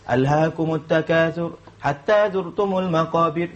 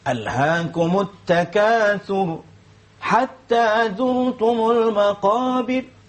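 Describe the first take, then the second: First: The pitch stays level throughout the phrase. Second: The pitch moves between high and low. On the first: Only one story is being told. The speaker calls it wrong. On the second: Different parts of the story are brought out. The speaker calls it right. "Mungkin kita boleh buat"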